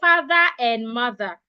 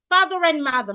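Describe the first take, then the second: First: Each word is said separately, not joined. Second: The words run together like one word. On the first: The speaker calls it wrong. "Another person will say ... That is wrong" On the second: The speaker calls it right. "The right way to say it is"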